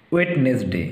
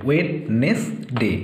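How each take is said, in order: First: Said in the usual way. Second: "Wednesday" very slowly, in three separate syllables. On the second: Shown as a demonstration. Teacher splitting the word for pupils, "Wednesday" syllable by syllable. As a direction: break "Wednesday" into wed, nes, day with clear gaps. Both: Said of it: "তিনটে syllable ভাগ করে নেবে".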